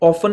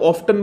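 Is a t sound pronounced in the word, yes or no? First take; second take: no; yes. First: The word is said without a t sound. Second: The word is said with a t sound. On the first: "ऑफन नहीं बोलेंगे" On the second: "ऑफ्टन बोलेंगे तो ज़्यादा cool लगेंगे"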